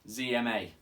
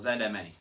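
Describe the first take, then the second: First: The first letter has an American pronunciation. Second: The first letter has a non-American pronunciation.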